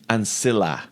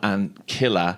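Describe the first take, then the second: First: The c in ancilla sounds soft. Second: The c in ancilla sounds hard. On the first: The speaker calls it right. "you would soften that. So ancilla" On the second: The speaker calls it wrong. "would say not ancilla"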